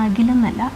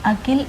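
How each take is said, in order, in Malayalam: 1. നടുവിലെ വ്യഞ്ജനം g പോലെയാണ് കേൾക്കുന്നത്. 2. നടുവിലെ വ്യഞ്ജനം k പോലെയാണ് കേൾക്കുന്നത്. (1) "കായാണ്, ഗായല്ല കേട്ടോ. നമ്മുടെ നാട്ടിലുള്ള അഖിലല്ല" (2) "കായാണ്"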